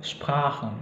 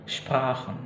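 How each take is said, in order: No difference in how they are said.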